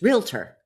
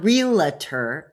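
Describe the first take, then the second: First: It is pronounced just as it is spelled. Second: It is pronounced differently from the spelling. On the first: The speaker calls it right. "Look at how it's spelled" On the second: The speaker calls it wrong. "It's not realtor"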